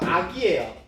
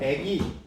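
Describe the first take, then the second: First: The first vowel is 'a'. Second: The first vowel is 'ae'. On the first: The speaker calls it right. "우리는 표준어가" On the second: The speaker calls it wrong. "백일 동으로 땡겨버리니까"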